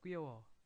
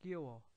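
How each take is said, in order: No difference in how they are said.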